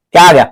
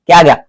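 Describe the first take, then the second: No difference in how they are said.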